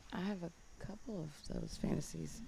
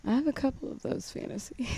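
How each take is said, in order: First: Hushed, shy confession; whispering. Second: Said again louder and clearer; louder repeat. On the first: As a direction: say it barely above a breath. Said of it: "You're whispering". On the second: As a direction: repeat it so they can hear. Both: Real, not acted.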